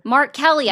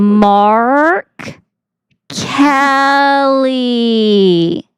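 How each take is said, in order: First: It is said at normal speed. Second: It is said slowly.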